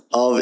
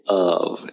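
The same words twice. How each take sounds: First: "of" as a stressed awv; full vowel. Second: "of" as uhv; weak form. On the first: Teacher showing what not to say, "of" with full vowel. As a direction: give "of" a full open vowel. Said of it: "because you don't say of". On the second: Teacher showing what you say, "of" as weak uhv. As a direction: say "of" with a schwa. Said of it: "you say of". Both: Shown as a demonstration.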